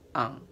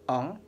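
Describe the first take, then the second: First: The nasal vowel is said more open. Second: The nasal vowel is said more closed. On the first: "un peu plus ouvert" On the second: "ne se prononce pas comme ça"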